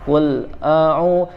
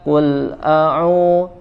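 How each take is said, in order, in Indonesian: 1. Suaranya berhenti mendadak, ada jeda setelah qul. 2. Suaranya berhenti mendadak, ada jeda setelah qul.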